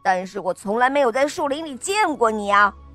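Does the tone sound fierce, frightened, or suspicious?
fierce. It is said in a fierce tone.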